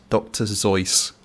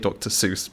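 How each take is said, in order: First: The name begins with a buzzing z sound. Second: The name begins with a hissing s sound. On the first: This is how the name is meant to be said. "I think it's meant to be pronounced Doctor Zeus" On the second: This is how most people assume it is said. "we'll say Doctor Seuss because that's what everyone assumes"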